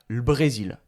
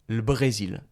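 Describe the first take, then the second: The two takes are said the same way.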